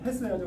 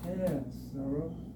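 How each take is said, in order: First: It is said in a plain, firm modern way. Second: It is said in a very soft, gentle way. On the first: "지금식으로 하면" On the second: "여기식으로 발음해 보면 ... 아주 부드러워요"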